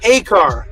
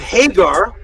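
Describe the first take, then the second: First: The middle consonant is a hard K sound. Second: The middle consonant is a soft G sound. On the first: The speaker calls it right. "it's said Hakar with a harder G sound, which is a Q or a K sound" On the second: The speaker calls it wrong. "It's not said Hagar"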